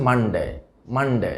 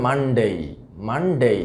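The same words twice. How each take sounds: First: মানডে with short, unglided "de"; common mispronunciation. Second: মানডে ending in a gliding "dey"; full ei diphthong closing মানডে; correct pronunciation. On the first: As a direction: say মানডে as "man-de". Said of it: "আমরা যেভাবে উচ্চারণ করে থাকি". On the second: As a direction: say মানডে as "MUN-day". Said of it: "সঠিক উচ্চারণটা আসলে হবে". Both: Shown as a demonstration.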